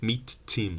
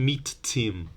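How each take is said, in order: The two takes are said the same way.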